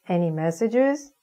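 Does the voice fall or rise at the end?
fall. The voice falls at the end. The asker sounds depressed and unwilling to get messages. The speaker calls it wrong. "which sounds like you don't want any messages"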